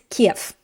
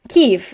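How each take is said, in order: First: The name is said the Russian way. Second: The name is said the Ukrainian way. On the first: "in Russian, the word for Kiev is Kiev" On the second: "Kyiv is the Ukrainian pronunciation"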